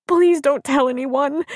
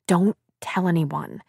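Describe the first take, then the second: First: High, slow pleading wail; tearful. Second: Said in the usual way. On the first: A narrator's reading. Crying woman begs friend's husband for secrecy, tearful. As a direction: beg tearfully with stressed words. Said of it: "Abby stressed tearfully".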